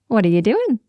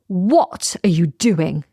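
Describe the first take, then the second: First: It sounds light, warm and friendly. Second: It sounds sharp and disapproving. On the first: The speaker is curious about the activity. "saying it with a, a positive and light tone, with a smile on my face" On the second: The speaker objects to the activity. "doing something that I completely disagree with"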